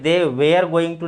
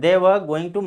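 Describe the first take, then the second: First: 'Were' sounds like 'wear', with a long vowel. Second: 'Were' has a short vowel and no R. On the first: The speaker calls it wrong. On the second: The speaker calls it right.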